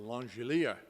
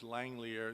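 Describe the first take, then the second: First: The name is said with a European pronunciation. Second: The name is said with an English pronunciation. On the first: "If you uh, go to Europe, it's the Langelier Index" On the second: "this is the English pronunciation"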